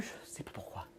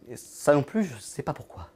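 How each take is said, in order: First: "je sais pas pourquoi" dropped to a whisper; whispered ending. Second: Said in the usual way. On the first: Acted. Puzzled by his own body, he whispers the shrug. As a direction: trail off into a breathy whisper on "pourquoi". Repeated line, second take whispered.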